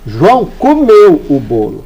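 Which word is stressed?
comeu. The stress falls on comeu.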